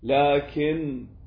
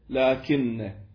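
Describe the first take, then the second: First: The final n is short and single. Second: The final n is long and doubled. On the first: The particle is in its lightened form. "لكن بدلا من لكن" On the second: The particle is in its original heavy form. "بدلا من لكن"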